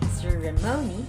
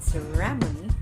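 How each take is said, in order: First: The stress is on the third syllable. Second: The stress is on the second syllable. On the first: "not also on the third" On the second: "not ceremony. The second syllable"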